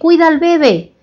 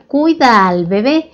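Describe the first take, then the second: First: The stress in bebé falls on the first syllable. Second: The stress in bebé falls on the last syllable. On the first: The speaker calls it wrong. "Y en la costa generalmente dice, oye, cuida al bebé" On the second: The speaker calls it right. "en la frase correcta sería cuida al bebé"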